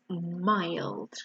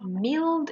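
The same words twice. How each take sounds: First: The vowel matches the vowel of 'dry'. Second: The vowel is not the vowel of 'dry'. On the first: The speaker calls it right. "it's mild" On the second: The speaker calls it wrong. "remember it's not mild"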